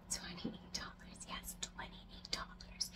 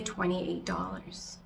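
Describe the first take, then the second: First: Slow, barely audible whisper; whispered aside. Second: Said in the usual way. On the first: Real, not acted. Vlogger confiding a plant's auction price to viewers, whispered. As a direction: whisper it slowly, like a juicy secret.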